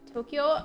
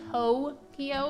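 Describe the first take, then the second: First: The first syllable does not sound like 'toe'. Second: The first syllable sounds like the word 'toe'. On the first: The speaker calls it right. "I'm trying to be, be better about pronouncing it" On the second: The speaker calls it wrong. "not say it like Tokyo, because I just feel like it sounds like you're talking about a foot"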